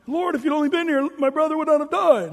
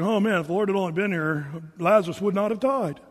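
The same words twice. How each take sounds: First: High, loud mock lament to the Lord; hammed-up reproach, pitched well up; mock complaint. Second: Said in the usual way. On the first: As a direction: plead it loudly, in a put-on high voice. Acts out sister complaining to Jesus.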